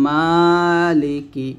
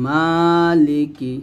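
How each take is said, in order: Both takes have the same delivery.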